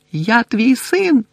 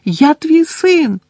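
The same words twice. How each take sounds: First: High, slow shout; crying out. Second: Very high, loud, slow scream; desperate scream. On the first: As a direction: cry to his father. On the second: Son screaming at Crouch, desperate. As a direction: scream it, breaking. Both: A narrator's reading. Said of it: "кричав він".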